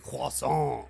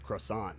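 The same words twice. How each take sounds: First: It is said with a French pronunciation. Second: It is said with an English pronunciation. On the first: The speaker calls it right. "it's gotta be croissant" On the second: The speaker calls it wrong. "So what I said"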